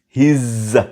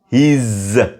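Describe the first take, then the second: First: The words merge into one contracted syllable. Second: The same.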